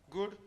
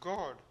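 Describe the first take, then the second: First: The vowel is an oo sound. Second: The vowel is an oh sound. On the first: This is the modern pronunciation. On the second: This is the original older pronunciation.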